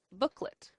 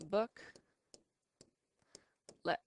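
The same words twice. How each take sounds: First: Said in the usual way. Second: "book, let" with a long pause between; separated syllables. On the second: Shown as a demonstration. Teacher separating a two syllable word, "book, let" far apart. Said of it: "So we can separate it".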